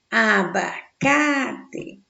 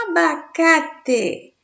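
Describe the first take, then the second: First: Very slow "Abacate", a-ba-ca-te at normal pitch; syllable by syllable. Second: Slow, high "Abacate", strong on "ca"; tonic syllable stressed. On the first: Teacher separates the word, "Abacate" very slowly by syllables. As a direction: stretch "Abacate" out in parts, lingering on "ca". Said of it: "Olha só a separação". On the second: Teacher presents the example, "Abacate" raised with "ca" stressed. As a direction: call out "Abacate" slowly, lifting "ca". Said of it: "Ca é a sílaba de maior intensidade". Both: Shown as a demonstration.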